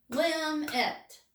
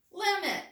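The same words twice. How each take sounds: First: "Limit" split into two clear beats, lim, it; syllable by syllable. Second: Said in the usual way. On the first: Shown as a demonstration. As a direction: clap out "Limit" with a short break between syllables. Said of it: "let's clap limit and see how many syllables we hear". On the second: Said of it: "It has two syllables".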